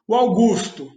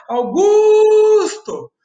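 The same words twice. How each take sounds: First: Said in the usual way. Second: "Augusto!" shouted with a long, high GUUUS; quick AU, loud held GUS, tiny TO in "Augusto!"; calling out, middle syllable stretched. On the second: Shown as a demonstration. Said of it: "abre a janela e grita e chama o Augusto".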